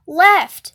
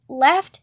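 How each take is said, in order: First: Loud, firm falling order; urgent command. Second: Unsure, questioning lilt; confused. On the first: Freak steering his friend away from the gang, urging. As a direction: call out the direction sharply. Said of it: "he's urging me on". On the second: Friend unsure of rights and lefts, confused. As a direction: ask it as if lost. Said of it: "I'm a little confused about rights and lefts". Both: A narrator's reading.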